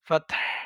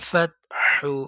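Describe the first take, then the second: First: The word ends on the h sound, no vowel. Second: The word ends with a short vowel after h. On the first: The reader stops at this word. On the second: The reading continues without stopping.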